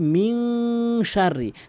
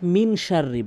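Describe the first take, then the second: First: The n is held nasally through the nose. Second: The n is said plainly, without a nasal hold. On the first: The speaker calls it right. "নাকের ভিতরে নিয়ে বলবেন" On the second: The speaker calls it wrong. "অধিকাংশ লোক মিন শাররি বলে"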